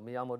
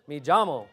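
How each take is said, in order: First: The double L is said like a Y. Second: The double L is said like a J.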